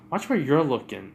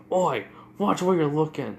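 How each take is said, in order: First: "you're" pushed up and out as a comeback; retort stressing YOU'RE. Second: Raised, gruffly annoyed call, higher in pitch; irritated warning. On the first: Girl turns Bakugo's warning back on him, stressing "you're". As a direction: throw it back with weight on "you're". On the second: Bakugo bumps into a stranger, irritated warning. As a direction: call out at whoever bumped you. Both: Retold or imitated.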